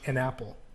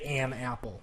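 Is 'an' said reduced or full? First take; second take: reduced; full. First: The word 'an' is reduced and weak. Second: The word 'an' is full and strong. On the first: The speaker calls it right. "you say it sounds like an an apple" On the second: The speaker calls it wrong. "You don't say"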